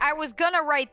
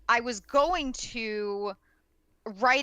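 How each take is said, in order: First: Going to is shortened to gonna. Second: Going to is pronounced fully and carefully. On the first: The talk is informal. "I'm cutting it short. I'm not enunciating" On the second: The talk is formal. "I'm saying going to"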